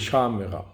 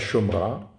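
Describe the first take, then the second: First: The first vowel is a, with three syllables. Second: The first vowel is o, with two syllables. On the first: The speaker calls it right. "c'est Shamera" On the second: The speaker calls it wrong. "C'est pas Shomra"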